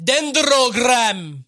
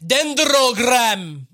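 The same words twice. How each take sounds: First: The second D is enunciated hard and clearly. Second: The same.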